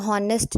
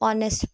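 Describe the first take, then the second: First: The word begins with an h sound. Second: The word begins with a vowel sound. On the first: The speaker calls it wrong. "वो हॉनेस्ट नहीं पढ़ते" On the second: The speaker calls it right. "उसको ऑनेस्ट पढ़ते हैं क्योंकि उसमें एच silent होता है"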